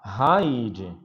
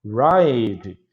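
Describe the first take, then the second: First: "hide" with a breathy H sound. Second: "ride" with a clear English R. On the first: Teacher showing how a Portuguese R turns "ride" into "hide". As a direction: say "hide" with an airy H at the start. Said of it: "se você falar hide". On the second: Teacher modeling "ride" with an English R. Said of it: "Se você falar ride". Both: Shown as a demonstration.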